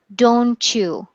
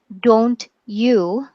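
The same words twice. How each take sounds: First: The t and y merge into one sound. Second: The t and y are said separately. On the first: "in connected speech, we pronounce it" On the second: "This is uh, slow speech, or if you pronounce everything"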